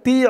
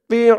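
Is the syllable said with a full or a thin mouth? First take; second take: thin; full. First: The syllable is said thin and light. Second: The syllable is said with a full mouth. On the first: It sounds like a different letter. The speaker calls it wrong. "একেবারে তি বলা যাবে না। তি বললে কিন্তু এই তোর জায়গায় তার উচ্চারণ হয়ে যাবে।" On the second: It is the intended letter. The speaker calls it right. "বলতে হবে তি, মুখটা একটু ভরপুর থাকবে"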